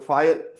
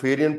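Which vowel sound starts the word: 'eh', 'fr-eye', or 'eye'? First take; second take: eye; eh. First: It starts with 'f' followed directly by 'eye'. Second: It starts with 'feh' and has an extra syllable. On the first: The speaker calls it right. "ये होती है फायन" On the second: The speaker calls it wrong. "वो फेरियन पढ़ रहा है"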